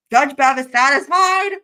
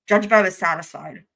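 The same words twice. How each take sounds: First: High, loud, drawn-out squeal; losing it. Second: Said in the usual way. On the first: Real, not acted. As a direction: repeat it louder and higher, barely holding it together. Repeats it, losing composure over innuendo.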